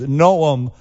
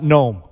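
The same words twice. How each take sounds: First: The name is said with two syllables. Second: The name is said with one syllable. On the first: The speaker calls it right. "his name is Noam" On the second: The speaker calls it wrong. "not Noam"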